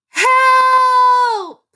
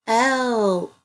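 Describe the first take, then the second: First: Loud, high, drawn-out cry of HELP; exclamation with feeling. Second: Said in the usual way. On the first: Shown as a demonstration. Teacher demonstrating an exclamation point, a high shouted exclamation. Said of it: "It was said with feeling". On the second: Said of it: "Definitely an exclamation point".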